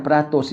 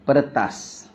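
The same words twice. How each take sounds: First: "peratus" said with a clear a in the middle and a rounded o at the end, as per-a-tos; the mistaken "peratus", pe-RA-tos; wrong reading. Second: "peretas" said with weak schwa vowels, pər-tas, ending in a; the right word "peretas", short and falling; correct reading. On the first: (sebutan salah "peratus", bunyi pe-ra-tos) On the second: (sebutan betul "peretas", bunyi pə-rə-tas) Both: Shown as a demonstration. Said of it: "Dia bukan peratus ya".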